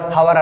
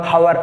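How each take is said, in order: First: The word begins with an audible h sound. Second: The word begins with an audible h sound.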